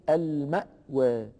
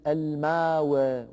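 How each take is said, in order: First: المأوى with a clear glottal stop; with hamza. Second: الماوى slowly, long a, no hamza; wrong form. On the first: Teacher gives the correct reading with hamza. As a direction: say المأوى as al-ma'waa, hamza kept. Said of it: "وإنما يقول المأوى". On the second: Teacher slowly shows the form Warsh avoids. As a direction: say الماوى as almaawaa, no glottal stop. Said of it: "فلا يقول ورش". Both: Shown as a demonstration.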